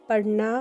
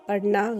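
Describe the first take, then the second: No difference in how they are said.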